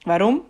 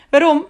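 First: Said in the usual way. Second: Much higher and louder "Waarom?" rising; incredulous echo. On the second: A narrator's reading. Guard repeating Piak's question, astonished echo. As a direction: throw the word back in disbelief.

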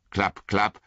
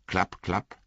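First: Hooves coming nearer; hoofbeats. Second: Klapp, klapp as hooves drawing near; hoofbeats. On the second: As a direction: sound out the hoofbeats. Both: A narrator's reading.

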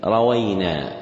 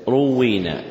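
First: روينا with fatha on ra and waw; rawayna pronunciation. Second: روينا with damma on ra, doubled waw; u then doubled w and long ee in روينا; ruwwina pronunciation. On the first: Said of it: "بفتح الراء والواو". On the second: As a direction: say روينا as "ru-WWEE-na". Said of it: "وكسر الواو مشددة". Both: Shown as a demonstration.

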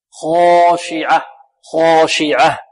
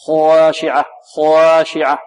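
First: "خاشعة" with the long a heavy all through; slow "خاشعة", one dark long a after kha; evenly heavy alif. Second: "خاشعة" with the long a split from heavy to thin; drawn-out "خاشعة", its alif changing colour midway. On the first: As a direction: hold the alif of "خاشعة" full-mouthed, undivided. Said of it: "والألف كذلك مفخمة لأنها تتبع ما قبلها". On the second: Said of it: "لا نجزئ الألف، نجعل جزءا منها في، آه، مفخم والجزء الآخر ماذا؟ مرققة". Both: Shown as a demonstration.

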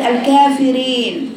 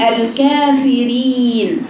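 First: الكافرين ending "rayn", i opened to e; slowly bend the last vowel of الكافرين towards e; wrong tilted i. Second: الكافرين slow, ending in a held "reen"; correct pure i. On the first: Teacher showing the wrong reading, ending opened to e. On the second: Teacher modelling the correct word, pure long ee. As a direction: keep a clean long ee in الكافرين. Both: Shown as a demonstration. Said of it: "وليست".

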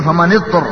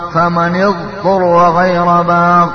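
First: اضطر with the ض swallowed into the ط, as etur; wrong ط sound. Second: اضطر with a full, clear ض before the ط; correct ض. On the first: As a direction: merge the ض of اضطر into the ط. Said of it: "أبدلت الضاد بالطاء". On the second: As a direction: keep the ض in اضطر distinct from the ط. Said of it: "إذا ما لاحظت هذا الشيء يصير". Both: Shown as a demonstration.

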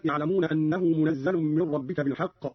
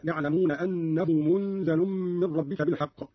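First: Said in the usual way. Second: منزل with nasal hum before a single z; light zay, hidden nun. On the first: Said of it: "قرأ قالون بإسكان النون وتخفيف الزاي". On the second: Shown as a demonstration. Teacher shows Qalun's reading, منزل as munzalun with ghunna. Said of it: "بإسكان النون وتخفيف الزاي".

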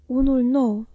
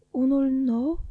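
First: Said in the usual way. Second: Stunned echo. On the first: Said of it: "a adăugat Peggotty". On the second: A narrator's reading. Boy echoes the nurse's words in disbelief, rising. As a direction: echo of unul nou rising into a question. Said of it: "am repetat eu".

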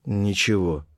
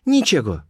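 First: Said in the usual way. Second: Put-on high-pitched girl's reply; Colibri's voice. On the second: A narrator's reading. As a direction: pitch it up for the girl, then let it fall. Colibri repeats her answer.

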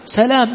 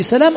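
First: سلام with one short L; single light L. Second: سلام with a long doubled L. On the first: Teacher asking which reading applies, single L in سلام. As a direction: say سلام lightly, L not doubled. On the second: Teacher offering the other reading, L doubled in سلام. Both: Shown as a demonstration. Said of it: "لأن أسماء هؤلاء جاءت مشددة".

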